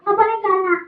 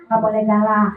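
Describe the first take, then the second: First: Higher-pitched puppet voice; puppet character. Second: Said in the usual way. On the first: Acted. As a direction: parrot it back as the puppet. Puppet parrots presenter's admonition.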